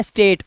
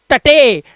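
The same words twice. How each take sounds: First: स्टेट in one syllable, long 'ay'; स्टेट rhyming with 'late'; correct reading. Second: टटे as a drawn-out 'sta-TAY'; टटे mis-read in separate syllables; wrong reading. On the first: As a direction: say स्टेट with silent final e. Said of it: "इसे पढ़ते हैं". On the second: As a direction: sound the final e, slowly, in टटे. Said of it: "इसे पढ़ते हैं स्टेट". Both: Shown as a demonstration.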